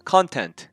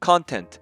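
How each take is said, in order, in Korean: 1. 강세는 첫 번째 음절에 있어요. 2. 강세는 첫 번째 음절에 있어요.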